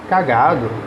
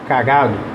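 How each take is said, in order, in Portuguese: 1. A tônica está na segunda sílaba. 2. A tônica está na segunda sílaba.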